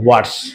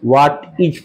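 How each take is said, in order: First: The word 'is' is reduced to an s sound. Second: The word 'is' is said in full. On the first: The speaker calls it right. "आपको व्हाट्स" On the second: The speaker calls it wrong. "व्हाट इज पूरा नहीं बोलते हैं"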